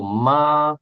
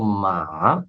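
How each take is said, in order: First: The syllable is said in the first tone. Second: The syllable is said in the third tone. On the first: It means mother. "está em primeiro tom e significa mãe" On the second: It means horse. "está em terceiro tom, significa cavalo"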